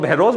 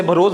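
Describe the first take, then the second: First: भरोस said "bhe-ROS", with an e; alternative pronunciation. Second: भरोस said "bha-ROS", short first vowel; first pronunciation variant. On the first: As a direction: say भरोस as bhay-rose. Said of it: "कुछ लोग भरोस बोल रहे हैं". (भरोस को "भेरोस" बोलें) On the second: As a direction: say भरोस as bhuh-rose. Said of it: "कुछ लोग इसे भरोस बोल रहे हैं". (भरोस में पहला स्वर छोटा "अ") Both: Shown as a demonstration.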